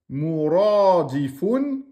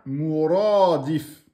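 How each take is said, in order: First: The word ends with a final 'un' sound. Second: The word stops short on the final consonant. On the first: The reader carries on without stopping. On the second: The reader pauses at the end of the verse.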